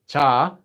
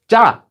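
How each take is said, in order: First: The first consonant is plain and relaxed. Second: The first consonant is tense and doubled. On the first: The speaker calls it wrong. "Not just 자" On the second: The speaker calls it right. "which is the double consonant version"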